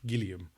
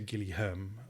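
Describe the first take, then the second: First: No H sound is pronounced in the middle. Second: An H sound is pronounced in the middle. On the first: The speaker calls it right. "but I think the H is silent" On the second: The speaker calls it wrong. "so you don't say"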